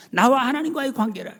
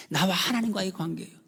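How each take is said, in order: First: 나와 하나님과의 관계라 said high and loud; raised declaration. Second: Said in the usual way. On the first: Real, not acted. Preacher proclaiming forgiveness, high loud proclamation. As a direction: lift 나와 and proclaim it. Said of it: "repeated statement, raised". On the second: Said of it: "repeated statement, then raised".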